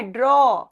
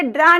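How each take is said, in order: First: ड्रॉ said "draw", rounded vowel, falling; correct draw. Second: ड्रा said "draa", open vowel; mispronounced draw. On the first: Teacher answers her own question, ड्रॉ with rounded "aw". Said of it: "क्या बोलना है". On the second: Teacher warns students not to say ड्रा, with open "aa". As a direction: make the vowel of ड्रा a wide "aa". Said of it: "ड्रा नहीं बोलना है". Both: Shown as a demonstration.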